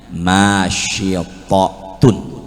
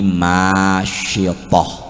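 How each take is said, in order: First: The word ends with a full 'tun' syllable. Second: The word ends with a short 'h' sound. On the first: "lalu di ujung tak marbutoh, jadinya masyitotun" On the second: "Tapi kita singkat jadi masyitoh"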